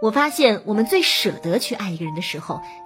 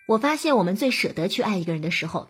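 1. 重音落在舍得上。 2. 没有哪个词特别重读。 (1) "如果把重音放在舍得、暗恋这2 个词上，是对表达最有益的" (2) "我特意的没有表达出它的重点"

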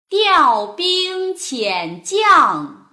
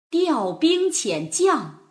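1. 读得很慢，吐字非常清楚。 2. 读得快一些，带有感情。

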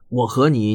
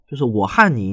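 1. 和这个字，大陆的发音是'he'。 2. 和这个字，台湾的发音是'han'。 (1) "最常见的就是“和”这个字" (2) "那么他们发成“汉”的"

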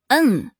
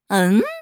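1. 音高从高处急速降到低处。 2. 音高从中音升到高音。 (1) "最后它还可以发四声嗯" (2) "第一种呢是发第二声嗯，就是表疑问嘛"

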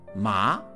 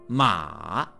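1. 音调不是先降后升。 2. 音调先降，再升。

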